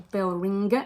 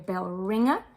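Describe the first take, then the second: First: A hard g follows the ng sound. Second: Only the ng sound, no hard g. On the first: The speaker calls it wrong. "it's not going to be a" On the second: The speaker calls it right. "it's going to be a bell ringer"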